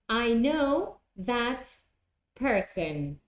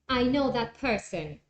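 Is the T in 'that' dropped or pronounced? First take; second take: pronounced; dropped. First: The T in 'that' is pronounced separately. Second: The T in 'that' is dropped, words run together.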